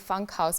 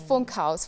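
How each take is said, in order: First: The first vowel sounds like English 'fun'. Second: The first vowel is a German 'oo' sound. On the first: The speaker calls it wrong. "having the English background, you'd want to say Funkhaus because of the U" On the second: The speaker calls it right. "but in German the U is pronounced U, so it's Funkhaus"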